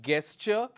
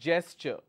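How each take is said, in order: First: The word begins with a hard g sound. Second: The word begins with a j sound. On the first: The speaker calls it wrong. "this is not gesture" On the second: The speaker calls it right. "it starts with a j sound, not g"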